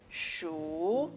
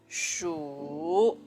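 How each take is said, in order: First: The pitch rises from middle to high. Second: The pitch has the third tone contour. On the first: "This is the second tone. It's a rising tone" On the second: "This is the third tone"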